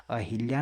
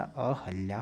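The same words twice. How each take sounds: First: अहिल्या said a-HIL-ya; wrong "hi" syllable. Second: अहल्या said a-HAL-ya; "ha" middle syllable. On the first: Teacher repeating what is wrong, "hi" in the middle. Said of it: "अहिल्या नहीं होता". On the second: Teacher repeating the correct word, "ha" in the middle. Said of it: "अहल्या होता है". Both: Shown as a demonstration.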